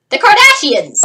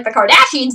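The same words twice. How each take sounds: First: Higher, louder punchline on "the Kardashians"; mock disdain. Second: Said in the usual way. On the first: Real, not acted. Vlogger naming the dreaded fate as a punchline, mock disdain. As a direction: hit "the Kardashians" high and loud, with mock horror. Mocking punchline after a pause.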